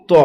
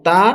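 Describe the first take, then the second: First: ত as a heavy, rounded to; thick sound. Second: তা with a light, thin t; thin sound. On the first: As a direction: say a full, thick ত. (মোটা আওয়াজে ত) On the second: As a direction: keep তা light and open. (পাতলা আওয়াজে তা) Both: Shown as a demonstration. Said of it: "এর উচ্চারণ হচ্ছে আলাদা".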